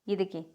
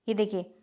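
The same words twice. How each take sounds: No difference in how they are said.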